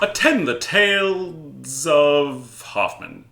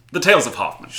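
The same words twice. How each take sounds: First: Slow, grand and theatrical; dramatic announcer. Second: Said in the usual way. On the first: Pretend. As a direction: proclaim it like a stage herald. Mock grand opening announcement.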